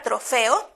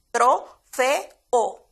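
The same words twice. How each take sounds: First: Said in the usual way. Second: "trofeo" said slowly as tro-fe-o, each vowel apart; "trofeo" pronunciado sílaba por sílaba; syllables spelled out. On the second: Shown as a demonstration. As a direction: split "trofeo" into three clear syllables, tro-fe-o. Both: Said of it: "así la pronunciamos".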